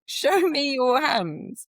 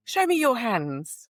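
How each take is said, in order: First: Much higher, slow, louder mocking parrot; mocking echo of doctor. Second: Higher, slow commanding demand; stern demand. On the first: Nurse retelling the doctor mimicking her order, high mocking echo. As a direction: parrot her back like a sneering man. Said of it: "And he went". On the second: Retold or imitated. Nurse retelling confronting a doctor, stern slow demand. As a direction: order him, each word firm. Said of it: "And I went".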